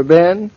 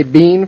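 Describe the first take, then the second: First: Said in the usual way. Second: "bean" with a long ee; long-vowelled "bean"; "been" said as bean. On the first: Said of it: "you don't say bean for Ben". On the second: Retold or imitated. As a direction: make "bean" rhyme with seen. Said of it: "does she say bean for Ben".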